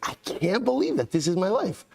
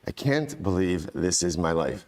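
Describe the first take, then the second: First: It sounds excited and thrilled. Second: It sounds weary and dismayed.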